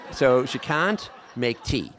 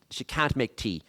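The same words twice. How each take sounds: First: Slow and deliberate, can't leaned on hard; slow, louder, can't stressed. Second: Said in the usual way. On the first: Shown as a demonstration. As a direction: spell it out: she can't make tea.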